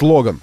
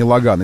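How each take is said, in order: First: The name is said with a Russian pronunciation. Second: The name is said with a French pronunciation. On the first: The speaker calls it right. "поскольку мы в России, а не в Пари, здесь он все-таки у нас Logan" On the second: The speaker calls it wrong. "а не Logan"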